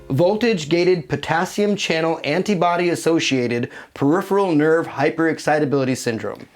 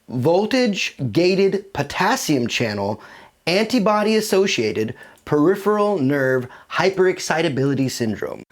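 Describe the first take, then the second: First: The name is said at a normal conversational pace. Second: The name is said slowly and deliberately.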